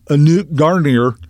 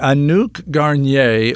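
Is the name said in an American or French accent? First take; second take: American; French. First: The name is said with an American pronunciation. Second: The name is said with a French-style pronunciation.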